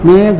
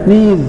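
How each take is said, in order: First: The vowel is a mid 'e' sound. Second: The vowel is a long 'ee' sound. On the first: The speaker calls it wrong. "நேஸ் அல்ல" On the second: The speaker calls it right.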